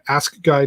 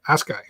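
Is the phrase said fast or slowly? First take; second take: slowly; fast. First: It is said slowly, each word pronounced carefully. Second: It is said quickly, the words running together. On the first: The speaker calls it right. "I have to say that very slowly and pronuncially" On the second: The speaker calls it wrong. "if you say it too fast"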